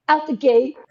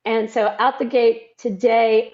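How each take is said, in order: First: Southern accent. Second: Said in the usual way. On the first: Shown as a demonstration. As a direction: lean into the Southern accent on "Out the gate". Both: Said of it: "My Southern accent will be here".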